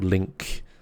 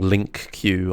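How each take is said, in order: First: It is said as one syllable, link. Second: It is said as two syllables, link queue. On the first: The speaker calls it right. "Or link" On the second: The speaker calls it wrong. "I'm I'm saying it wrong"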